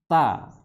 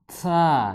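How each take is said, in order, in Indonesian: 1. Konsonan ini hambat tegas tanpa gesekan. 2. Konsonan ini dilepas dengan gesekan mendesis.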